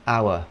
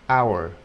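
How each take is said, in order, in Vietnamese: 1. Từ này kết thúc không có âm r. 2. Từ này kết thúc bằng âm r nhẹ. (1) "Người Anh đọc là hour" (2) "Người Mỹ thường có khuynh hướng đọc thêm chữ r vào nữa"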